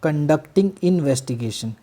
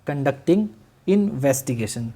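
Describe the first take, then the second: First: Conducting investigation drawn out very slowly; slow dictation. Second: Conducting investigation said again, very slowly; slow repeated dictation. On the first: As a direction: stretch out conducting investigation for note-taking. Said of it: "police officer". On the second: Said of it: "क्या?". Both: Shown as a demonstration.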